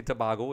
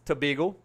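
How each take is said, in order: First: Tobago with an open "ah", tuh-BAH-go; foreign pronunciation. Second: Tobago with a long "ay" in the middle, tuh-BAY-go; local pronunciation. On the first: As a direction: say Tobago as Spanish speakers might, with BAH. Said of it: "I could understand why you say". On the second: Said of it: "that's how we say it". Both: Shown as a demonstration.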